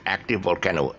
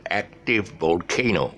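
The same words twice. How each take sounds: First: Said in the usual way. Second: "active volcano" slowed, syllable by syllable; slow, deliberate teacher's "active volcano"; slow demonstration. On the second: Shown as a demonstration. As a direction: spell out "active volcano" slowly, vol-CAY-no. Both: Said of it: "there's a shift in the syllable".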